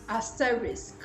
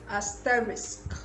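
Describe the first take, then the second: First: The word ends with s followed by k. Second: The same.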